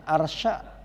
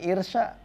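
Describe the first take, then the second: First: The first vowel is an open 'a'. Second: The first vowel is a close 'i'.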